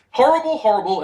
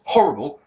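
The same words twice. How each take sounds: First: Said in the usual way. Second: "horrible" pitched down as one emphatic word; in capitals. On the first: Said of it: "it goes like this". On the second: Retold or imitated. Reviewer reading his capitalised note on the cat fight, emphatic. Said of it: "and then in capitals".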